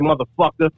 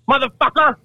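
First: It is said in a plain, standard way. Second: It is said with a white trash drawl.

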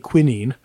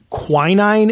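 First: Quinine is said with a British pronunciation. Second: Quinine is said with an American pronunciation.

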